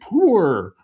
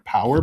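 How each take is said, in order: First: Said in a put-on Scottish accent, like one syllable. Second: Said plainly with two syllables, as power. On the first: "but it's like poor" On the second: "he was saying power"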